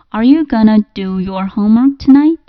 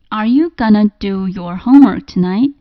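First: "Going to" is reduced to "gonna". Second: "Going to" is reduced to "gonna".

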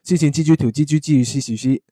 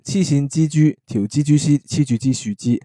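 First: It is said at a faster pace. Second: It is said at a slower pace.

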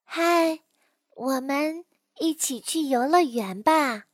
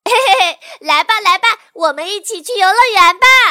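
First: It sounds calm and quiet, like a shy child. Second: It sounds lively and cheerful, like an outgoing child.

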